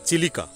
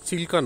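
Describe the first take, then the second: First: The name is said with three syllables. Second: The name is said with two syllables. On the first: The speaker calls it right. "আসল উচ্চারণ" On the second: The speaker calls it wrong. "আসল উচ্চারণ কিন্তু ঠিক চিল্কা নয়"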